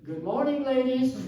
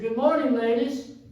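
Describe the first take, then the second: First: It is said at normal volume. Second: It is said a little louder.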